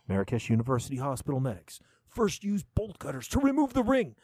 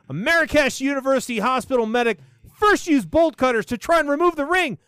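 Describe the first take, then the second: First: It is read in a dramatic movie-trailer voice. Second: It is read in a normal voice.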